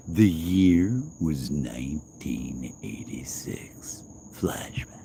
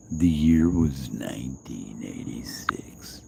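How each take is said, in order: First: Slow hushed trailer narration; slow, breathy flashback voiceover; dramatic whisper. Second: Slow whispered movie-trailer intro; hushed, slow storyteller whisper; dramatic whisper. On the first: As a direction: whisper it slowly like a movie intro. Repeats flashback intro. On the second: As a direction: breathe it like a flashback narrator. First take of intro. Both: Pretend.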